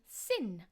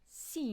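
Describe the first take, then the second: First: The vowel is a short i sound. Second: The vowel is a long ee sound. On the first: The speaker calls it right. "will be sin" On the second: The speaker calls it wrong. "not seen"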